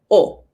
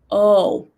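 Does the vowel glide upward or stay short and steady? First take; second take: short, steady; glides upward. First: The vowel is short, steady and cut off. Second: The vowel is long and glides upward. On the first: This is the Spanish vowel. "We will cut the sound. It won't go on" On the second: This is the English vowel. "in English we have this sound that goes up. Long O"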